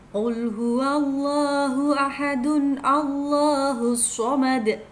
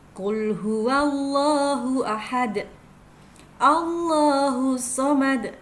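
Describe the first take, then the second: First: The phrases run together without a stop. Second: The voice stops after the first phrase. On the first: "Kita baca jika diwasolkan" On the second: "Biasanya kita bacanya wakaf"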